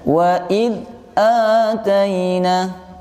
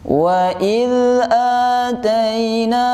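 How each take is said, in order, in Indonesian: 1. Suara terputus pada bunyi dh. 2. Bunyi dh mengalir halus tanpa pantulan. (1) "suaranya jangan sampai putus" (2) "Suaranya harus bersambung dan tidak disertai pantulan"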